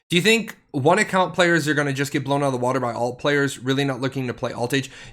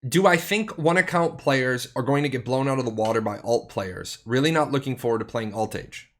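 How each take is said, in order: First: It is read at a quicker pace. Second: It is read at a slower pace.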